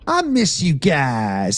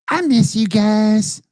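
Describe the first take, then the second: First: It is said in his normal voice. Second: It is said in a Cartman impression.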